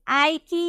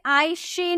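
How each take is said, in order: First: The middle consonant is a k sound. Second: The middle consonant is an sh sound. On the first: "नहीं बोलेंगे" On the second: "नहीं बोलेंगे"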